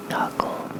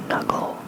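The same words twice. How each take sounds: The two takes are said the same way.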